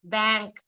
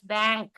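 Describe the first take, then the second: The two takes are said the same way.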